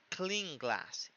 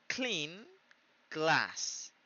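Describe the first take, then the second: First: "clean glass" slow but joined, no gap, N becoming NG; words run together. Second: "clean", pause, "glass", each word on its own; "clean" high and rising, then "glass" falling after a gap; separated words. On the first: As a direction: link it as "cling-glass". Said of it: "casi que se une las palabras". ("clean glass" unido, suena "cling-glass") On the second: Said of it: "nosotros tenemos que decir". ("clean" y "glass" separadas, con pausa) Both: Shown as a demonstration.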